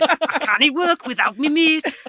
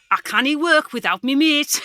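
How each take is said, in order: First: Higher, slow Geordie impression; Ant and Dec in the job centre. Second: Higher, slow Geordie lilt; Ant and Dec Geordie impression. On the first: Comedian repeats his Geordie impression for the panel. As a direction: Geordie duo down on their luck. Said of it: "Ant and Dec in the job centre". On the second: Comedian shows off his Ant and Dec Geordie accent. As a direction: Geordie accent like a telly presenter duo. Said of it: "I'm trying to do an impression of Ant and Dec". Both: Shown as a demonstration.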